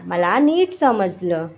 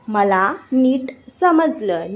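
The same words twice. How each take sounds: First: Said in the usual way. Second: Slow, with gaps between words; slow teaching repeat. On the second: Shown as a demonstration. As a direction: stretch it out for beginners. Teacher repeats slowly for learners. (धीरे-धीरे, रुक-रुक कर)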